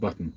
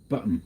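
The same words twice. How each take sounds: First: The middle T is pronounced as a clear T. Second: The middle T is replaced by a throat catch. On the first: "not button" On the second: "miss out the t, the double T, and just do uh instead"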